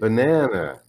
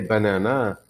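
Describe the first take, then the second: First: The stress falls on the middle syllable. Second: The middle syllable is not the stressed one. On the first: The speaker calls it right. "it's the middle one" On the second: The speaker calls it wrong. "I don't say banana"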